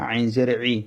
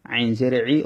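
No difference in how they are said.

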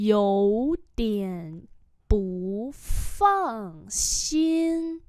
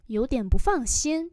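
First: Drawn out syllable by syllable; slow model reading. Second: Said in the usual way. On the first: Shown as a demonstration. Teacher modelling "a bit worried" for learners, very slowly. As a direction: separate every syllable and hold it.

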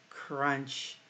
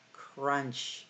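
No difference in how they are said.

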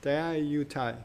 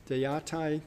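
First: "Daiyatai" with a clear "yu" before the final "tai"; corrected pronunciation. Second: "Daiyatai" with the middle syllable slurred away; unsure pronunciation. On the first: Lecturer echoing a student's version, "Daiyatai" with every syllable sounded. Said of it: "Say it louder". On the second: Lecturer attempting an unfamiliar island name, "Daiyatai" pronounced unsurely. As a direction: say "Daiyatai" roughly, as an unsure non-native attempt. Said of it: "say the name of the islands better with". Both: Shown as a demonstration.

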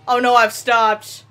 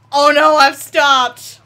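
First: Said in the usual way. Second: Louder, slow, drawn-out alarm; alarmed cry. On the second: Real, not acted. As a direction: cry it out as the train stalls.

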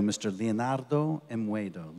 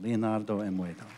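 First: Slow grand announce. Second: Said in the usual way. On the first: Shown as a demonstration.

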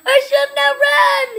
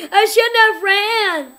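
First: High, loud whiny wail; real despairing wail; wailing lament. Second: Laughing wail. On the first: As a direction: moan it out in despair. Repeats lament louder. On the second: Dying after running. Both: Real, not acted.

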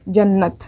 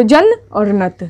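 First: जन्नत said in one go with a held double n; whole word with the doubled n held; joined word. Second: जन and नत said as two separate syllables; slow syllable-by-syllable spelling; split into syllables. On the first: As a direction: blend जन्नत together, lingering on the नन्न. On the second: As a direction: break जन्नत apart as जन … नत. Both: Shown as a demonstration. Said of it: "नून को दो बार पढ़ना है".

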